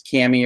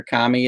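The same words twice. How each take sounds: First: Kami pronounced "KAM-ee"; first vowel as in cat. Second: Kami pronounced "KAH-mee"; first vowel as in father. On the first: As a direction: give Kami a short a, like "cammy". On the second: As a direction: give Kami a long "ah" in front. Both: Shown as a demonstration. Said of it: "I don't know how you pronounce it".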